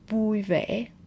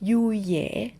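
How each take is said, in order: First: The words begin with a v sound. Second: The words begin with a y sound.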